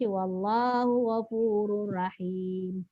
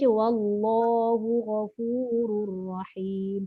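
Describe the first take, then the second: First: The L and R sounds are light and thin. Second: The L and R sounds are heavy and full. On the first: The speaker calls it wrong. "Habis Allah pun dia jadi nipis, ra tadi rahim jadi rahim" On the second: The speaker calls it right. "Patutnya kita baca"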